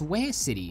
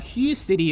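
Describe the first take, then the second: First: The name gets a fully native Vietnamese reading. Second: The name gets a plain English-style reading. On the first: A Vietnamese speaker has corrected the pronunciation. "your Vietnamese friend will say it's actually pronounced Ware City" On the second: The speaker is new to the name. "if you're new and not Vietnamese"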